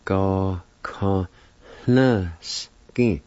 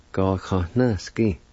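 First: Slow, separated teaching pronunciation; syllable by syllable. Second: Said in the usual way. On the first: Shown as a demonstration. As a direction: give each syllable its own beat. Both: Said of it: "it's pronounced like this".

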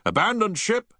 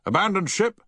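First: Loud, high repeated alarm; shouted. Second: Loud, high shouted alarm. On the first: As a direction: shout it again over the tannoy. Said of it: "he repeated several times". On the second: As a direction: shout it to the whole ship. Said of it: "shouted Havens". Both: A narrator's reading.

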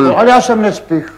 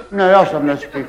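First: "já" stressed, falling at the end. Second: Said in the usual way. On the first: Shown as a demonstration. Correcting himself, stress on "já". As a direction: push hard on "já" in "já jsem nespich".

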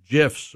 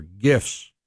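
First: "gifs" starting with a j sound; soft-g pronunciation. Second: "gifs" starting with a hard g; hard-g pronunciation. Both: Shown as a demonstration. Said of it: "Never have been sure".

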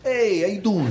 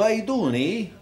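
First: "Hey" up front, "how you doing" in a light New York Italian style; lightly mocked American Italian greeting, starting on "Hey". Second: Italian "How you doing" with a Canadian "eh" tacked on; lightly mocked Canadian Italian, "how" lifted, closing on "eh"; Canadian Italian greeting. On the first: Comic comparing with Italians back home, mock New York greeting. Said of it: "And down here they go". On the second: Comic describing Canadian Italians, mock Canadian Italian greeting. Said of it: "they talk backwards".

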